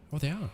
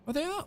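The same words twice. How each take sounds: First: Said in the usual way. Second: "Oh, they are" jumping up high in delighted surprise; surprised. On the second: Real, not acted. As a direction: realize it with a sudden high rise. Surprised the window views exist.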